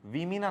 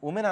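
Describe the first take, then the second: First: The first vowel sounds like 'ih'. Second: The first vowel sounds like 'oo'. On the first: The speaker calls it right. "ఎలా మీరు pronounce చేయాలంటే విమిన్ అనాలి" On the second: The speaker calls it wrong. "దీన్ని ఉమెన్ అనకండి"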